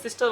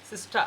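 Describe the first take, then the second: First: Said in the usual way. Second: সিস্টা ending on open "aa", no R; open-ended সিস্টা; silent final R. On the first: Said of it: "আর সিস্টার বলা যাবে না". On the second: Shown as a demonstration. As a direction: drop the R at the end of সিস্টা. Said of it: "কী বলতে হবে".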